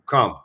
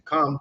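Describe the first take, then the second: First: It is said deep and resonant, from the chest. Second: It is said lightly, in an ordinary voice.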